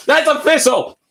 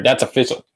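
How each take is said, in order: First: High, emphatic declaration; excited. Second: Said in the usual way. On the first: Real, not acted. Streamer declaring his new build idea in excitement. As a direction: announce it triumphantly.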